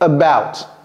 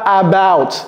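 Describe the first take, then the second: First: The first vowel is a weak uh sound. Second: The first vowel is a full open a. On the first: The speaker calls it right. "C'est about" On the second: The speaker calls it wrong. "Ce n'est pas about"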